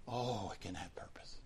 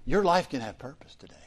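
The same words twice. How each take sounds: First: A soft unvoiced whisper of hope; whispered reassurance. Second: Said in the usual way. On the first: Real, not acted. Pastor whispering comfort to a friend who feels purposeless. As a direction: breathe it gently, like a secret promise. Gentle reply to despairing friend.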